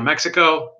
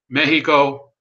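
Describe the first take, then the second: First: It is said with an English pronunciation. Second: It is said with a Spanish pronunciation.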